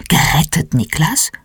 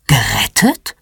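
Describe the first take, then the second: First: Understated, wide-awake questioning; wide-awake surprise. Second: Low, mildly startled question on one word; a low, rising double-take. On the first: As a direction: ask with a touch of surprise, voice rising. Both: A narrator's reading. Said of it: "Mama ist plötzlich hellwach".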